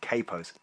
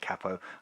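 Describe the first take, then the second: First: It is said the way Americans say it. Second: It is said in the speaker's non-American way.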